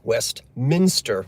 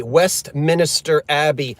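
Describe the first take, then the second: First: "Westminster" slow and correct, three syllables; correct pronunciation. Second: "Westminster" said as "West-min-i-ster"; mocking "Westminster" with an added syllable; extra syllable. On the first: Shown as a demonstration. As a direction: spell out "Westminster" properly, no extra syllable. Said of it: "we know that". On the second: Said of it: "when they say Westminster Abbey".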